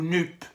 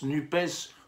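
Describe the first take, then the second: First: The final S is silent at the end. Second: The final S is sounded at the end. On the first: "si on prononce NUPES ou NUP" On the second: "si on prononce NUPES ou NUP"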